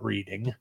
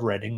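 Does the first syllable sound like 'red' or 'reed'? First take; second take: reed; red. First: The first vowel is long, like 'reed'. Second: The first vowel is short, like 'red'. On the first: The speaker calls it wrong. "not Reading" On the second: The speaker calls it right. "I said Reading, not Reading. It is spelled Reading, folks, but it is pronounced Reading"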